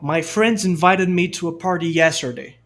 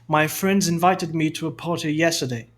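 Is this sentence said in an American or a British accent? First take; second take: American; British. First: It is spoken in an American accent. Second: It is spoken in a British accent. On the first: "Sotaque americano" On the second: "Sotaque britânico"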